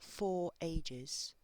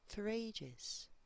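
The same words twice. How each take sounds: First: 'For' is full and separate from 'ages'. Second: 'For' is weak and runs into 'ages'. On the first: The speaker calls it wrong. "So it's not" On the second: The speaker calls it right. "that is a very, very weak form in this sentence... it also connects to the word ages"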